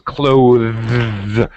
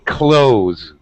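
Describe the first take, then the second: First: A 'th' sound comes before the final 's'. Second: The 'th' sound is dropped before the 's'. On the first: "correct pronunciation is clothes with the th sound" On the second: "but most Americans say close, just like close the door"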